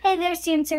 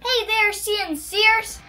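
First: It is said with ordinary, low energy. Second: It is said with extra zip and energy.

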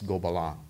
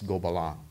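First: It is said with a French pronunciation. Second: The same.

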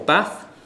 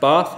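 First: It has a short northern vowel. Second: It has a long southern vowel.

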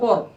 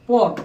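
First: The word ends on a bare consonant. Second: The word ends on a bare consonant.

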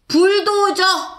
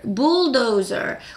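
First: The word has a Korean-style pronunciation. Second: The word has an English-style pronunciation. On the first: "이거 한국말이고" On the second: "영어로는 bulldozer"

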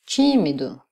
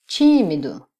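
No difference in how they are said.

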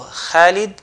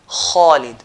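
First: The first sound is light, with a thin mouth. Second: The first sound is heavy, with a full mouth. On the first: The speaker calls it wrong. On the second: The speaker calls it right.

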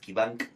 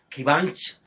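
First: The name ends with a hard k sound. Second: The name ends with a soft sh sound. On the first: The speaker calls it wrong. "muchos decíamos Kivank, como se escribe" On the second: The speaker calls it right. "nos mandó un video para que sepamos pronunciar"

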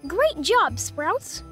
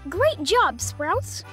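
Both takes have the same delivery.

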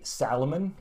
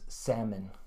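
First: An L sound is heard in the middle. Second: No L sound is heard in the middle. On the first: The speaker calls it wrong. "Finns say salmon because it's spelled that way" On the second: The speaker calls it right. "actually the way we say it is salmon"

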